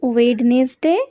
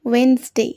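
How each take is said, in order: First: A d sound is heard in the middle. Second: No d sound is heard in the middle. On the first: The speaker calls it wrong. "একেবারেই ভুল" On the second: The speaker calls it right. "কি বলবে?"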